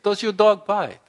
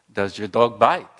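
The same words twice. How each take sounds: First: Put-on French accent, higher and louder, insisting. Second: Put-on polite question in a French accent; lightly put-on French accent, asking calmly; Clouseau French accent. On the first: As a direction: repeat it in a French accent to wake him. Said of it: "so he repeats it". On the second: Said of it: "Clouseau in his French accent says".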